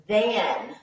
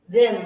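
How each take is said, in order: First: "than" with an open a, as in "cat". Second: "than" said with a short e, like "then". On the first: Teacher gives students the right word, "than" with an open a. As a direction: say "than" with a clear, open a vowel. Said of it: "with an A". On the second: Teacher shows students the wrong word, "than" said as "then". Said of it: "than with an E". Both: Shown as a demonstration.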